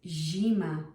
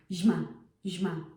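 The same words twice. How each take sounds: First: "zima" with a soft palatal zi, said fully; correct soft zi. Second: "zima" said fast with a hard short zi, as the wrong way. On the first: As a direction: soften the zi in "zima". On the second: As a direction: rush "zima" with a hard clipped zi. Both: Shown as a demonstration. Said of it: "No, it's zima".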